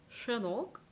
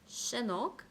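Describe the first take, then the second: First: The first consonant is a broad, airy hush. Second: The first consonant is a thin, whistle-like hiss. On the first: The speaker calls it wrong. "이걸 샤로 발음했다면 이렇게 됐을 거예요" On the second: The speaker calls it right. "발음을 최대한 얇게 내뱉는다"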